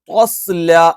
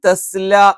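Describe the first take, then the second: First: Both consonants are said heavy, with emphasis. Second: Both consonants are said light, without emphasis. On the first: "ഇനി നമ്മൾ ഓവർ ആക്കിയാൽ" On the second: "ഒന്നുകിൽ തസ്ല എന്നായി പോവും"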